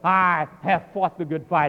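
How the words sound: It is said boastfully, stressing the pronoun.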